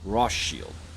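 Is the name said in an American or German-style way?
German. The name is said with a German-style pronunciation. "I just was kind of saying Rothschild"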